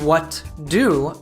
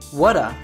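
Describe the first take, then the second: First: Both words are said fully and separately. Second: The words are reduced and run together. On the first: "instead of what do" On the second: "We reduce do, drop the T from what, and connect the two words"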